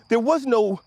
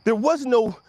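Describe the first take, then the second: No difference in how they are said.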